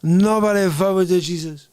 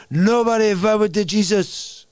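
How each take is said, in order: First: Lightly voiced threat, leaning on "Nobody"; Jesus from Lebowski. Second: Lightly voiced swaggering bowler; a hint of menacing Latin bowler boast; Jesus from Lebowski. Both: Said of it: "That's freaking everybody from the movie".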